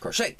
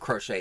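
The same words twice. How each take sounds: First: The word is said loudly and excitedly. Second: The word is said plainly, without extra energy.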